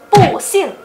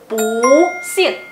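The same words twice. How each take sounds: First: The word bu carries the fourth tone. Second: The word bu carries the second tone. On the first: The speaker calls it wrong. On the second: The speaker calls it right.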